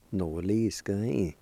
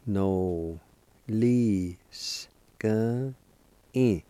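First: "No, li, s, g, i" linked into one word; fluent teaching take of "No, li, s, g, i"; joined-up pronunciation. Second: "No, li, s, g, i" slowly, with pauses between sounds; syllable-by-syllable pronunciation. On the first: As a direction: run "No, li, s, g, i" together smoothly. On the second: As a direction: sound out "No, li, s, g, i" piece by piece. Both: Shown as a demonstration. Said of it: "it's pronounced like this".

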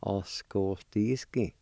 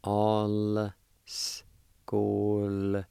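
First: All skoldiski as one connected, careful phrase; joined-up pronunciation. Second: All skoldiski very slow, each sound held apart; syllable-by-syllable pronunciation. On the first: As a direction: link the syllables of All skoldiski, measured pace. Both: Shown as a demonstration. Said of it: "They'll sound like this".

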